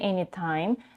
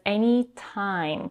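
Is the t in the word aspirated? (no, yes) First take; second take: no; yes. First: The t is said without a puff of air. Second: The t is said with a puff of air. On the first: "She doesn't say anytime" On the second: "Aspirated t"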